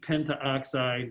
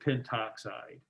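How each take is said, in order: First: Two vowels are said together before 'oxide'. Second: Only one vowel is said before 'oxide'. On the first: The speaker calls it wrong. "We don't like to say it with the double vowel like that" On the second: The speaker calls it right. "we just say pentoxide"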